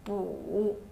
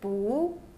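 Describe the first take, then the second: First: The pitch dips low, then rises. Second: The pitch rises from mid to high.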